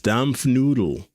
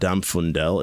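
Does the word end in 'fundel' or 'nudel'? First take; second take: nudel; fundel. First: The word ends with the sounds 'nudel'. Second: The word ends with the sounds 'fundel'. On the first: The speaker calls it right. "It's Dampfnudel" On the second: The speaker calls it wrong. "I was saying it wrong. It's not Dampfundel"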